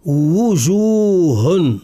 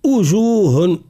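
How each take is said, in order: First: وجوه very slow, starting on a full rounded wu; fully voiced waw. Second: وجوه wrongly begun with a glottal u, as ujuh; waw turned to hamza. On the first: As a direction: stretch وجوه, sounding the initial w clearly. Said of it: "التصويت بحرف الواو". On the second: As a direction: drop the w of وجوه, start higher on a hard hamza. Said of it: "يغيره بصوت همزة القطع". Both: Shown as a demonstration.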